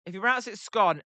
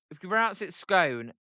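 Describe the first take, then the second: First: "scone" rhyming with gone; scone with short O. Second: "scone" rhyming with cone; scone with long O. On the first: Streamer polls chat on pronunciation, "scone" with a short O. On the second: Streamer polls chat on pronunciation, "scone" with a long O. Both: Shown as a demonstration. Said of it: "drop the E out of it".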